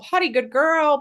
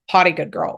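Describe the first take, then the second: First: It is said in an upbeat, positive tone. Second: It is said in a flat, neutral tone. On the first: The speaker calls it right. "we're saying this in a positive tone" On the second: The speaker calls it wrong. "we're not saying this in a neutral tone"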